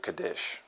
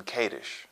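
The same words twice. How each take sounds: First: Kadesh said as kuh-DISH; alternative pronunciation. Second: Kadesh said as KAY-dish; KAY-dish pronunciation. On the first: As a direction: stress the second syllable of Kadesh. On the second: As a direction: stress the long first syllable of Kadesh. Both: Shown as a demonstration. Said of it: "some people pronounce it Kadesh".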